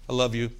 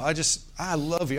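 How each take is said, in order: First: It is said flatly, without warmth. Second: It is said warmly, with strong feeling. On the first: The words are said out of routine. The speaker calls it wrong. "But I'm not mechanical" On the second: The words are truly meant. The speaker calls it right. "when you say it with some oomph behind it"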